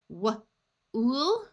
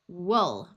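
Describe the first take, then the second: First: The vowel is a long oo, as in food. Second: The vowel is a short oo, as in book. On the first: "we will try the oo sound first" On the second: "so we will try uh"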